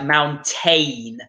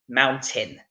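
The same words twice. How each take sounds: First: The second syllable has a full A vowel. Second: The second syllable has a reduced, weak vowel. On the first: The speaker calls it wrong. "it looks like we're supposed to be pronouncing the A, so we would get this like mountain" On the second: The speaker calls it right. "no, we need to be saying mountain"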